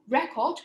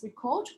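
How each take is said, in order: First: The stress is on the first syllable. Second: The stress is on the second syllable. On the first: It is used as a noun. "which is a noun" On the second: It is used as a verb. "which is a verb"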